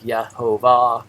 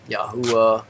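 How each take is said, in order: First: It begins with 'Yeh' and has a V sound. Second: It begins with 'Yah' and has a U vowel. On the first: It follows the later vowel pointings. The speaker calls it wrong. "if you do pronounce it out, yeah, it's going to sound like Yehovah" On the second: It follows the older original pronunciation. The speaker calls it right. "with the Yah at the beginning and the the Vav not being a consonant"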